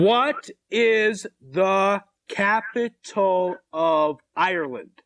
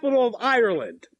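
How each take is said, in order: First: Drawn-out, word-by-word question; very slow repeat. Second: Quick, run-together question; talking fast. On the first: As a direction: spell it out slowly for someone who can't follow. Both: Real, not acted. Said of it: "You're talking too fast again".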